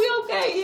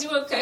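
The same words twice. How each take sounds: First: The second "You okay?" much higher and pressing; really wants an honest answer; insistent worry. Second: Said in the usual way. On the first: Retold or imitated. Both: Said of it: "She says".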